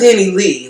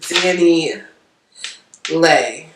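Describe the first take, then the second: First: The last syllable rhymes with 'see'. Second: The last syllable rhymes with 'day'. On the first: The speaker calls it wrong. "Because I call her Danny Lee" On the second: The speaker calls it right. "it's Lay. Because that's what Miss um Miss Martinez pronounced it"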